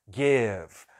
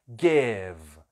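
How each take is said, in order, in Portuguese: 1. É pronunciada do jeito nativo do inglês. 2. É pronunciada do jeito nativo do inglês.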